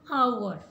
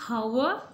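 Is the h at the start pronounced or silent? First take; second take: silent; pronounced. First: The word starts with a vowel, h silent. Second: The word starts with a pronounced h sound. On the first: The speaker calls it right. "H is silent" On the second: The speaker calls it wrong. "No, it is not right one"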